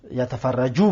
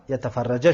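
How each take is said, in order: First: یتفرجو said with final "oo", "yatafarraju"; ending in -u. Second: یتفرجه said with final "a", "yatafarraja"; ending in -a. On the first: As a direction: end یتفرجو on a damma "u" vowel. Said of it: "ان در آمد". (یتفرجو با ضمهٔ آخر) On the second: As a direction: end یتفرجه on a fatha "a" vowel. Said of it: "نصب، منصوب شد". (یتفرجه با فتحهٔ آخر) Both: Shown as a demonstration.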